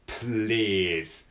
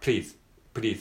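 First: The opening consonants are held and drawn out. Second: The opening consonants are said quickly and briefly. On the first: The speaker calls it right. "ちょっと溜めて言う感じ" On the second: The speaker calls it wrong. "早く言えばいいと思ってるんだけど"

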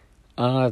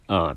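First: The pitch rises from low to high. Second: The pitch falls from high to low. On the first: "低音から高音に「あ」って上げる" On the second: "高音から低音にあーって下げる"

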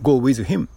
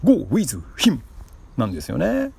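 First: It is said in the speaker's normal voice. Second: It imitates the speaker's high school English teacher.

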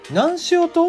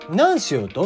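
First: It has genuine Hakata dialect intonation. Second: It has standard Japanese intonation. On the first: The speaker calls it right. "ちゃんと博多弁で言うと" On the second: The speaker calls it wrong. "標準語っぽいその博多弁で言うと"

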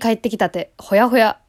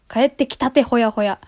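First: The phrase has an odd, unnatural intonation. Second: The phrase has a natural, ordinary intonation. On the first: The speaker calls it wrong. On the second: The speaker calls it right.

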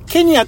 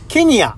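First: The word is said very fast. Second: The word is said fairly slowly. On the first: "もうめちゃめちゃ早口で" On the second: "もう一回ちょっとゆっくりめで言いますからね"

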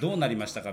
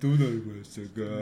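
First: It is said in a normal voice. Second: It is said in a low voice.

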